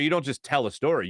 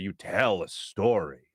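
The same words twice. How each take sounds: First: Said in the usual way. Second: Slow, low emphasis landing on "tell"; stress on tell. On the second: Shown as a demonstration. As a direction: tell leaned on, slower and lower. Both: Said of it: "the way you emphasize words".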